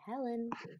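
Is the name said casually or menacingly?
casually. The name is said in a casual, chatty way.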